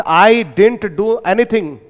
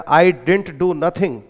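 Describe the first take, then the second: First: Very slow, word by word; standard English example. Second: Very slow, word by word; dialect example. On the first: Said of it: "standard English में बोलते हैं". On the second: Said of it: "dialect effect". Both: Shown as a demonstration. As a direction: dictate each word slowly. (धीरे धीरे शब्द दर शब्द)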